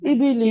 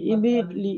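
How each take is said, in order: First: The middle syllable is kept short. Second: The middle syllable is drawn out long. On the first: The speaker calls it right. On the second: The speaker calls it wrong.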